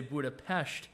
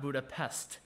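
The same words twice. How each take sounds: First: The final consonant sound is 'sh'. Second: The final consonant sound is a plain 's'. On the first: The speaker calls it right. "You're supposed to say Budapest, ... when you see an S in the Hungarian language, you say it like an SH" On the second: The speaker calls it wrong. "not Budapest"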